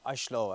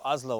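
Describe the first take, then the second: First: It is said with a Norwegian pronunciation. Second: It is said with an English pronunciation.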